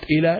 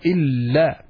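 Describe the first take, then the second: First: The l sound is short and single. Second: The l sound is held long and doubled. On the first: The speaker calls it wrong. "not ila" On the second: The speaker calls it right. "we stress more on the lam while pronouncing it"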